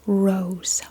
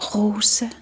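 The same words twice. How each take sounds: First: The R is made with a curled tongue. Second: The R comes from the back of the throat. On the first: "Rose in English" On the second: "in Danish we just use the back of our throat"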